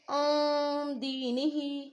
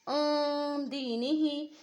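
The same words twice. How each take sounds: Both takes have the same delivery.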